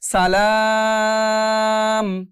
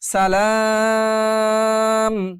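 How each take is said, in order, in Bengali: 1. শব্দটি লম্বা 'আ'-এর পরে 'ম' দিয়ে শেষ হয়েছে। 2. শব্দটি লম্বা 'আ'-এর পরে 'ম' দিয়ে শেষ হয়েছে।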